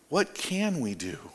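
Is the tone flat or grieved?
grieved. It is said with grief and despair.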